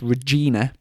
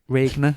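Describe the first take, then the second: First: The name is said with three syllables. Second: The name is said with two syllables. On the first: The speaker calls it right. "but it, it's Regina" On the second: The speaker calls it wrong. "I was pronouncing it Re, Re, Regna or something"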